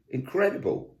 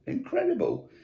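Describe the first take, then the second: First: Said in the usual way. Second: Incredible swooping much higher in disbelief; incredulous. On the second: Shown as a demonstration. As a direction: let incredible leap up in amazement.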